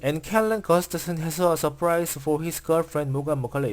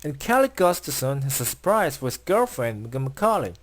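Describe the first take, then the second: First: Each word is read separately without rhythmic grouping. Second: Words are grouped into a few rhythmic chunks. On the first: The speaker calls it wrong. "한국어 읽듯이 ... 이런 식으로 읽지 않" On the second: The speaker calls it right. "리듬이 느껴지시나요?"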